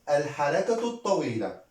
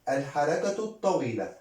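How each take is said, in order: Both takes have the same delivery.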